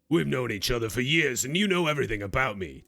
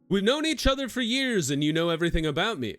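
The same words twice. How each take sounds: First: It is read in a put-on character voice. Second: It is read in a near-plain voice. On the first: The speaker calls it right. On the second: The speaker calls it wrong.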